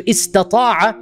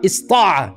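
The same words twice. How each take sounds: First: Istata'a with both t-sounds, is-ta-TA-a; ta kept. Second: Ista'a with the middle ta cut, is-TA-a; ta dropped. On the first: Teacher showing what is hard to pronounce, full istata'a. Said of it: "the ta is so difficult to pronounce". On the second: Teacher showing the allowed easier form, shortened ista'a. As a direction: go straight from s to the last ta in ista'a. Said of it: "You're allowed to say this". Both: Shown as a demonstration.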